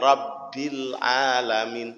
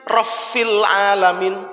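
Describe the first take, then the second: First: The first word has a b sound in the middle. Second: The first word has an f sound in the middle. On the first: The speaker calls it right. "Dia harus presisi dengan mahrojnya" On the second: The speaker calls it wrong. "Bak diganti fa, tidak boleh"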